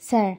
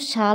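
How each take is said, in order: First: The word begins with an s sound. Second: The word begins with an sh sound. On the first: The speaker calls it right. "কিন্তু এটা উচ্চারণ হচ্ছে স্যার" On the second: The speaker calls it wrong. "এটার উচ্চারণ কিন্তু শাল না"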